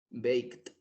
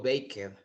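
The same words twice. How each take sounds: First: 'Baked' in one syllable, ending in a T sound; correct pronunciation demo. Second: 'baked' wrongly said in two syllables, bake-ed; wrong pronunciation demo. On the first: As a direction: say 'Baked' as beikt, no extra vowel. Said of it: "Pero no di-, no digo". ('Baked' bien pronunciado, en una sílaba: beikt) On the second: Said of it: "no digo". ('baked' mal pronunciado, en dos sílabas: beik-ed) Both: Shown as a demonstration.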